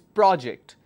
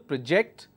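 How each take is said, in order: First: The stress is on the first syllable. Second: The stress is on the second syllable.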